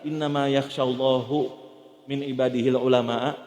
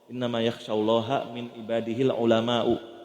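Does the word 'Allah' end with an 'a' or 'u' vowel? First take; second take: u; a. First: Allah ends in 'u', and ulama ends in 'a'. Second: Allah ends in 'a', and ulama ends in 'u'. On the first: God fears the scholars. The speaker calls it wrong. "cuman kebalik dhammah sama fathahnya aja" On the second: The scholars fear God. The speaker calls it right. "Yakhsyallaha pakai fathah. Yang takut ulama'u pakai dhammah"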